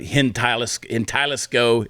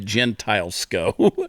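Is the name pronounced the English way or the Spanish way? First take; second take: Spanish; English. First: The name is pronounced the Spanish way. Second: The name is pronounced the English way.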